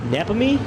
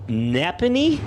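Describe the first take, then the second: First: "Napanee" said firmly and higher once the name is settled; confident pronunciation. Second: "Napanee?" sounded out slowly with a questioning rise; unsure pronunciation. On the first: Announcer getting the hometown right, pitched up and certain. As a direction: land "Napanee" with sure relief. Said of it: "Nep-, Napanee?". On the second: Announcer stumbling over a hometown, slow and unsure. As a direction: feel your way through "Napanee?" as if checking the name. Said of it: "Napanee, Canada". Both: Real, not acted.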